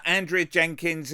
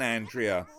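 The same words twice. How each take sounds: First: Said in the usual way. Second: "Andrea" dropped low and falling in contempt; "Andrea" said flat and low as a put-down; scornful. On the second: Acted. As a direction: spit out "Andrea" with disdain. Commentator scorns mayor after insult.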